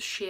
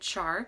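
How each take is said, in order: First: The name is said the usual way. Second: The name is said the American way. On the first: "it's called Shea" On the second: "some people in the U S pronounce it Char"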